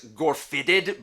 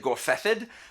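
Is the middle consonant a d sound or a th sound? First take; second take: d sound; th sound. First: The middle consonant is a plain d sound. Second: The middle consonant is a soft th sound. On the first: This is how the spelling seems to read. The speaker calls it wrong. "where it looks like it's" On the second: This is the real pronunciation. The speaker calls it right. "but it's really"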